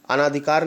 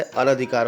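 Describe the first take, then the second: First: अनाधिकार with long "naa" in second syllable; long-vowel mistake. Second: अनधिकार with short "na" in second syllable; correct short vowel. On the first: Teacher showing students a misspelling, अनाधिकार with long "naa". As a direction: say अनाधिकार wrongly, as a-naa-dhikaar. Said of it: "अनाधिकार नहीं लिखा जाता है". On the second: Teacher correcting students, अनधिकार with short "na". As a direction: say अनधिकार as a-na-dhikaar. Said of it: "अनधिकार होता है". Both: Shown as a demonstration.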